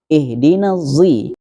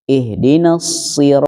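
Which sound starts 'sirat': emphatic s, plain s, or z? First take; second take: z; emphatic s. First: The word begins with a z sound. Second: The word begins with an emphatic s sound. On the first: "memakai zo" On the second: "pakai sod, huruf sod"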